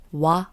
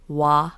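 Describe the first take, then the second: First: Wa held slowly as the Japanese syllable; Japanese pronunciation. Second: Said in the usual way. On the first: Shown as a demonstration. Host showing a slight difference, Japanese pronunciation of wa. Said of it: "the Japanese pronunciation is slightly different". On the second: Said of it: "instead of".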